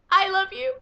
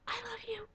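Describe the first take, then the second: First: High, loud adoring shout; loud gush. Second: Soft high adoring whisper; whispered gush. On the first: Fan shouting love at Aquaman, loud adoring cry. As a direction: yell your love out. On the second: Fan whispering love to Aquaman, soft adoring whisper. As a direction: breathe it as a secret. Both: Real, not acted.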